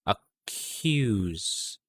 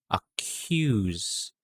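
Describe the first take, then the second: No difference in how they are said.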